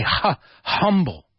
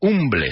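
First: "humble" with an audible breathed h; H pronounced. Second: "Humble" with silent h, like "oom-bleh"; spelling read Spanish-style. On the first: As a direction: sound out "Ha", then say "humble" with that h. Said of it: "The H we pronounce". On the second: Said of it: "Humble se escribe". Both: Shown as a demonstration.

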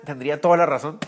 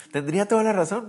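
First: Said in the usual way. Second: "toda" lifted higher with a rise; emphatic repeat stressing "toda". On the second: Shown as a demonstration. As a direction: lean hard on "toda", voice up high.

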